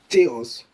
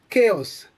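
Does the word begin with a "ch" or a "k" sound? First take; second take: ch; k. First: The word begins with a ch sound. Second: The word begins with a k sound. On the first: The speaker calls it wrong. "mistaken for the soft C H sound, like ch" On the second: The speaker calls it right. "The C H takes a hard key sound"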